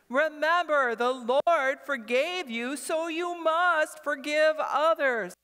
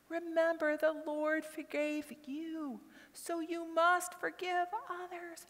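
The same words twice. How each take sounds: First: It is said very loudly. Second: It is said very quietly.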